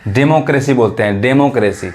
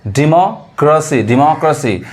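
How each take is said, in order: First: डेमोक्रेसी with de- and -kre-si, the wrong way; wrong pronunciation. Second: डेमोक्रेसी said slowly as di-mo-krə-si; correct pronunciation. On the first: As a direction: show the mistake डेमोक्रेसी as de-mo-kre-si. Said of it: "बहुत लोग इसको गलत पढ़ते हैं". (डेमोक्रेसी गलत उच्चारण) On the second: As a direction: model डेमोक्रेसी with di- at the start. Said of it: "वास्तविक जो उच्चारण मैं आपको सिखा रहा हूँ". (डेमोक्रेसी सही उच्चारण) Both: Shown as a demonstration.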